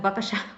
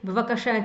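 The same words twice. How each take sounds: First: The word is said quickly with syllables squeezed together. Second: The word is said fully with every syllable clear.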